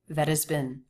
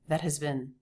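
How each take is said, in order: No difference in how they are said.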